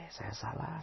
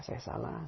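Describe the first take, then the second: First: Soft, higher, acted wife's voice; a hint of a contrite wife; hushed admission. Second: Breathy whisper of saya salah; wife whispering she is wrong; whispered admission. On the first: Wife admits fault, first take. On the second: Acted. Wife admits fault, second take.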